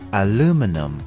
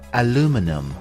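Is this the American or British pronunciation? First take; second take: American; American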